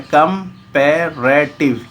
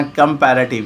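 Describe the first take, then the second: First: कंपैरेटिव broken into four slow, separate syllables; teacher sounding out कंपैरेटिव in four beats. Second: Said in the usual way. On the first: Shown as a demonstration. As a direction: say कंपैरेटिव as कम-पै-रे-टिव, pausing between parts. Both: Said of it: "ये चार syllable से बना".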